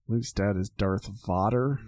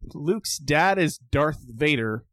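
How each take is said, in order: First: Vader is said with a Dutch pronunciation. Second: Vader is said with an ordinary English pronunciation.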